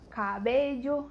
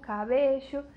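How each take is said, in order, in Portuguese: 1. O som do ll é bem marcado. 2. O som do ll é um chiado, tipo sh. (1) "na Espanha... é bem marcado... É bem forte esse L L" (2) "na Argentina é um chiado"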